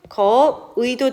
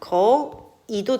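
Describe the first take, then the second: First: The last vowel is the diphthong 'ui'. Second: The last vowel is a plain 'i'. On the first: "거의라고 했을 때는 거의도 되지만" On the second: "거이도 된다"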